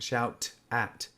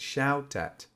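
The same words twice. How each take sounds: First: The T is clearly pronounced between the words. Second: The T is nearly silent, words merge together. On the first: The speaker calls it wrong. "it's not shout at" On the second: The speaker calls it right. "the T practically becomes invisible"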